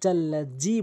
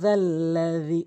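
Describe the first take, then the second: First: The consonants are 'j' sounds. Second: The consonants are soft 'dh' sounds. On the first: The speaker calls it wrong. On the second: The speaker calls it right.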